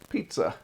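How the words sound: It is said in an Italian accent.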